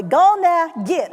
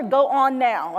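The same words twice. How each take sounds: First: Louder, higher "Go on now, get" with "Go on" squeezed into "Gone"; forceful. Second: "Go on now" in separate, careful words; careful, unforceful. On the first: Coaching the crowd, forceful "Gone now, git". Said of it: "You gotta do it forcefully". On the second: Showing the crowd what not to do, mild "Go on now". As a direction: keep "Go on" as two mild, proper syllables. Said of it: "I don't wanna hear". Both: Shown as a demonstration.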